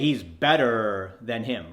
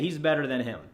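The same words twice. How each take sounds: First: The ER sound in better is heavily exaggerated. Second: The ER sound in better is light but present. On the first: The speaker calls it wrong. "you're never going to say" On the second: The speaker calls it right. "make it subtle in your text so it sounds like"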